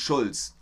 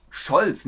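First: "Schulz" with a u instead of o; "Schulz" said with u, not o; wrong vowel. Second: "Scholz" with a clear, short o; "Scholz" pronounced firmly with o, not u; corrected vowel. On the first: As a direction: say "Schulz" with short u, as the mistake. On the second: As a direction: hit "Scholz" louder, with an o. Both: Shown as a demonstration. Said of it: "nicht Schulz".

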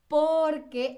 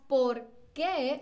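First: "porque" slowly, "por" strong and "que" light; one word, leaning on "por"; unweighted final E. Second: "por qué" with the weight on "qué"; two words, "qué" drawn out and falling; stress on qué. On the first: Teacher contrasts answer with question, light "que" in "porque". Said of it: "la E no tiene tanto peso". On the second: Teacher contrasts question with answer, weighted "qué". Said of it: "tiene como este peso". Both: Shown as a demonstration.

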